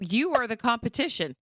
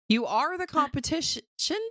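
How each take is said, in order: First: The word 'are' carries no special stress. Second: The word 'are' carries strong stress.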